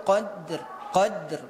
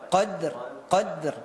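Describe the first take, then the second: The two takes are said the same way.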